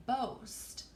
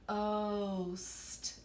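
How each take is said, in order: First: Said in the usual way. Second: "Boast" with B popped, then a long level O; stretched out. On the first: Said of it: "everybody say boast". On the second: Shown as a demonstration. Teacher stretching it out for students, "Boast" held long. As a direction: draw "Boast" out sound by sound. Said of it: "if I stretch it out".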